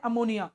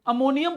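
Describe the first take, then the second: First: अमोनिया said without the final m, as plain ammonia; अमोनिया, the wrong reading with no final m; wrong name ammonia. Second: अमोनियम with a clear final -यम ending; अमोनियम, the right reading ending in m; correct name ammonium. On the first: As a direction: read it as अमोनिया, ending on a open vowel. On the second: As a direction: close अमोनियम firmly on the m. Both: Shown as a demonstration. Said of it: "अमोनिया नहीं पढ़ते हैं इसको".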